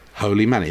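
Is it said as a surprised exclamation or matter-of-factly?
matter-of-factly. It is said plainly as a factual statement.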